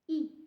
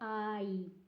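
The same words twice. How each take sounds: First: The vowel stays one steady sound. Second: The vowel glides between two sounds. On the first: The speaker calls it right. "It's I. It's just I" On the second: The speaker calls it wrong. "It's not I"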